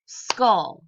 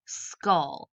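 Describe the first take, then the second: First: Skull said much louder as one clapped beat; a punchy single-beat Skull; clapped syllable. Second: Said in the usual way. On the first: Shown as a demonstration. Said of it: "Let's see if it's one syllable". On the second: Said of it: "So we tapped out our word".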